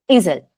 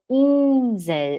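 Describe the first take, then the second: First: Insel said with a short, clipped I; wrong short I. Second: Insel said slowly with a long I. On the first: Teacher imitating students saying Insel wrong. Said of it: "Não é Insel". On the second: Teacher showing students the long I in Insel. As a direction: stretch the I in Insel. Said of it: "É um I longo". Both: Shown as a demonstration.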